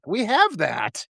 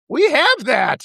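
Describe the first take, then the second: First: Slow, soft stress on have; quietly leaning on have; slow quiet take. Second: Higher and louder, punching have; insistent stress on have; raised emphatic take. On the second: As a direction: hit have hard, raising the voice. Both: Shown as a demonstration.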